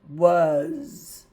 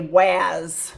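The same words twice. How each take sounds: First: The vowel sounds like the u in cup. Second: The vowel sounds like the a in cat. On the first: The speaker calls it right. "The A is making the U sound and the S is making a Z sound" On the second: The speaker calls it wrong. "Kids try to say was"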